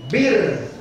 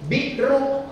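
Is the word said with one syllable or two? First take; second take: one; two. First: The word is said with one syllable. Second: The word is said with two syllables. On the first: This is how Indonesians say it. "orang Indonesia kan susah nyebut Biru, jadi Bir" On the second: This is the Arabic pronunciation. "itu bahasa Arabnya Biru"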